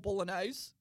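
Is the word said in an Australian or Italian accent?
Australian. It is said with an Australian accent. "in, like, an Australian accent"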